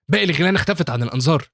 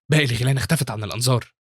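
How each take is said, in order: First: Higher, slightly louder call. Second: Said in the usual way. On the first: A narrator's reading. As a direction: call across to a hidden teammate. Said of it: "وبينده بعدها على البنت". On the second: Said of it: "وبيقول لين في نفسه".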